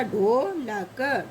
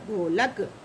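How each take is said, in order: First: ढोलक slowly as dho, la, ka; syllable by syllable. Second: ढोलक low, in one piece; joined-up word. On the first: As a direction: break ढोलक into drawn-out sounds. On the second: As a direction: run ढोलक together as dho-lak. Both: Shown as a demonstration. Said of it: "ऐसे पढ़ते हैं".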